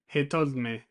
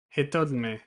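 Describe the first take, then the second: The two takes are said the same way.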